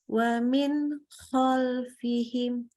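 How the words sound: The phrase is cut with a break inside. The speaker calls it wrong. "terputus. Nggak boleh"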